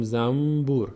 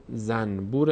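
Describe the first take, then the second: First: Zam-bur, with no n in زنبور; n turned to m. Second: Zanbur, the n not turned into m; unassimilated n. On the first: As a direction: say زنبور as zambur. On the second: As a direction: say زنبور as zan-bur with a clear n. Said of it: "اما زنبور نمیخونیم". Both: Shown as a demonstration.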